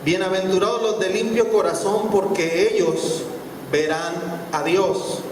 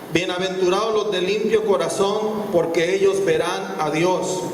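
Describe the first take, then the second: The two takes are said the same way.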